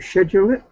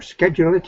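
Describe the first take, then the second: First: Schedule is said the British way. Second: Schedule is said the American way. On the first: "but I'm not" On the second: "if you're American"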